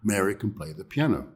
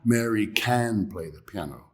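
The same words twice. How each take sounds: First: The word can is weak and unstressed. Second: The word can is stressed. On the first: The speaker calls it right. "We just say Mary can play the piano" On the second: The speaker calls it wrong. "So it's not Mary can play the piano. We don't say that naturally"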